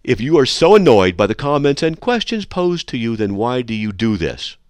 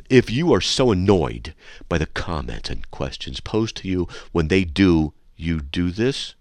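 First: Corrected take with a punchier question; emphatic reread. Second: Said in the usual way. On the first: Shown as a demonstration. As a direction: read it right with emphasis. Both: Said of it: "okay, hold on, I messed up".

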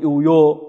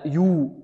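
First: "يو" said as an open yo; incomplete damma. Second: "يو" said as a pure, rounded yoo; full damma on ya. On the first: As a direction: let the vowel of "يو" sag from oo to o. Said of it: "لا نقول". (نطق "يو" بضمة ناقصة مفتوحة) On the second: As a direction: round the vowel of "يو" fully to oo, softly. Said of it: "لا، يو". (نطق "يو" بضمة خالصة تامة) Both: Shown as a demonstration.

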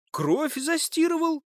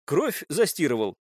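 First: Very high, slow, indignant question; incredulous echo. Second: Restrained accusing statement. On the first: Suspect throws the accusation back, incredulous. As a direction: echo the charge in disbelief, pitched way up. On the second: Captive accuses suspect of washing out blood, accusing. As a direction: put it to him as fact. Accusation, then echoed back. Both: Acted.

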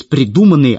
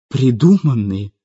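First: Said in the usual way. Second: Slow, bitter echoed question. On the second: A narrator's reading. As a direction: throw the word back with understated bitterness. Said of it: "горько спросила Светлана".

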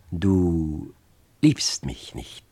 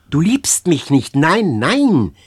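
First: Slow, toneless, low and empty. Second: Loud, higher cry, beside herself. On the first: Girl realising her lover does not love her, slow and toneless. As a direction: say it flatly, as if someone else spoke through her. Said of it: "sagte sie langsam und tonlos". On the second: Girl crying out to her lover, beside herself. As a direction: cry it out, frantic. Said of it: "rief sie wie außer sich". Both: A narrator's reading.

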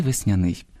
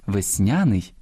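First: "весняний" stressed on the last syllable, веснянИй. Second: "весняний" stressed on the middle syllable, веснЯний; stress on second syllable. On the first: Host showing parallel stresses, "весняний" with final-syllable stress. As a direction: lean on the И of "весняний". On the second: Host showing parallel stresses, "весняний" with middle-syllable stress. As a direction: lean on the Я of "весняний". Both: Shown as a demonstration. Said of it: "подвійне або паралельне наголошування".

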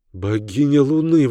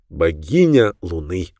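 First: Excited exclamation, a bit higher; exclaiming. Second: Said in the usual way. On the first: A narrator's reading. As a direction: cry it out in delight. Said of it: "воскликнула Диана". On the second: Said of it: "пояснил Хейден".

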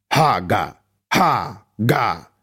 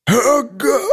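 First: Weak strangled wheeze; pitiful wheeze. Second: High strangled cry; desperate cry. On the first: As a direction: choke the rune out pitifully. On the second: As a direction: force the last shout out. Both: A narrator's reading. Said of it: "Хрип Нинсена вышел жалким и жалобным".

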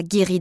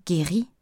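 First: Said in the usual way. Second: "Guérie?" echoed with a rising, puzzled lift; taken aback. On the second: A narrator's reading. Sam echoing Marianne's word, puzzled rising "Guérie?". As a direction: repeat "Guérie?" as a startled question. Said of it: "répéta-t-il interloqué".

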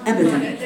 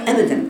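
First: Said in the usual way. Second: Second أبدًا lifted higher and louder; أبدًا repeated with a firm push; emphatic repeat. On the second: Shown as a demonstration. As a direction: insist on أبدًا.

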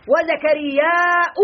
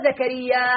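First: وزكرياء with a long drawn-out aa, then glottal stop; slow وزكرياء, ending -aaa-'u; lengthened alif ending. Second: زكريا ending on an open long a; short alif ending. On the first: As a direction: stretch the last alif of وزكرياء slowly into a hamza. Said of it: "بالألف الممدودة". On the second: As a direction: say زكريا with no final vowel or glottal stop. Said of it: "بالألف المقصورة زكريا بدون حركة". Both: Shown as a demonstration.

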